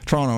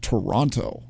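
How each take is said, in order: First: The name is squeezed into two syllables. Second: The name is said with all three syllables. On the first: This is how locals say the name. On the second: This is how outsiders say the name.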